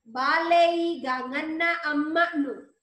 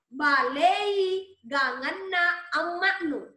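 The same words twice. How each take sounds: First: Balei is pronounced in its adjective form. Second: Balei is pronounced in its command form. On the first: Your mother's vegetable dish is tasty. "sayur ibumu gurih" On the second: Add seasoning to your mother's vegetable dish. "beri penyedap sayur ibumu"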